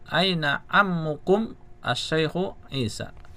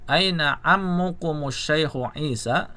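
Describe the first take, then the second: First: The words are said separately with breaks. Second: The words are linked together without breaks. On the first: "Kalau dipisah" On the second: "kalau mau dibaca sambung"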